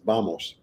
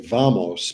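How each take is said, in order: First: The word begins with a B sound. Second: The word begins with a V sound. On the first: The speaker calls it right. "the V always sounds like a B" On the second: The speaker calls it wrong. "you would say vamos, but it's not correct"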